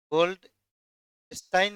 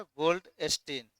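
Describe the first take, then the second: First: गोल्डस्टाइन with a long "aai" in the last syllable, as in English Goldstein; the reading to avoid: गोल्डस्टाइन, "-stain"; wrong way to say it. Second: गोल्डस्टीन, slowly, ending in a long "ee": "-steen"; the right reading: गोल्डस्टीन, "Gold-steen"; correct way to say it. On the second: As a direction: say गोल्डस्टीन carefully, last syllable "steen". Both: Shown as a demonstration. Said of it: "गोल्डस्टाइन नहीं पढ़िएगा".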